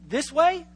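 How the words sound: It is said as a question. The speaker is asking whether it is the direction. "you pick up that they're asking the question"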